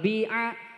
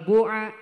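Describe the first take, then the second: First: The first vowel is a pure i sound. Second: The first vowel is a pure u sound. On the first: "ikhlasul kasri" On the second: "ikhlasul domi"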